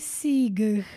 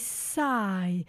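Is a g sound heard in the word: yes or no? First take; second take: yes; no. First: The word is said with a g sound. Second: The word is said with no g sound. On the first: The speaker calls it wrong. "we don't say sigh" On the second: The speaker calls it right. "we say sigh"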